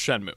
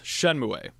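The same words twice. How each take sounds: First: The ending is a single sound, like moo. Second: The ending sounds both letters, like moo-eh. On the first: The speaker calls it right. "It's actually pronounced" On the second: The speaker calls it wrong. "it is not pronounced"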